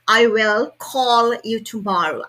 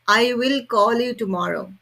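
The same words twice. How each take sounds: First: The L sounds are light, a slight slide. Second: The L sounds are said in an Indian accent. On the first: The speaker calls it right. "But it has to be actually" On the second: The speaker calls it wrong. "In India, basically people say like that"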